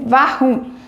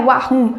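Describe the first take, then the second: First: The word begins with a V sound. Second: The word begins with a W sound. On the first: The speaker calls it right. "é warum" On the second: The speaker calls it wrong. "Não é warum"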